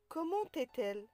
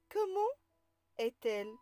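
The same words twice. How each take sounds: First: Comment is linked to est with a t sound. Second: Comment and est are kept separate, no linking sound. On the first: The speaker calls it wrong. "On ne dit pas" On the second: The speaker calls it right. "Après les adverbes interrogatifs, on ne fait pas de liaison"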